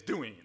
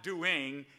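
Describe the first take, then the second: First: "doing" said as doin' with no ng; dropped g. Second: "doing" with a clear final ng; full ending. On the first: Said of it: "It's doing". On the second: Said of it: "It's not doing". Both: Shown as a demonstration.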